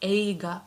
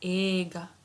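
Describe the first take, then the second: First: The first vowel is short. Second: The first vowel is held long. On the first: The speaker calls it wrong. "we don't say ega" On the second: The speaker calls it right. "we say ega"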